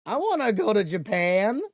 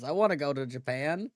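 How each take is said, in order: First: Loud, high mock whining; mock jealous whine. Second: Said in the usual way. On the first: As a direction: wail it like a jealous kid, playfully. Jealous whine, repeated louder.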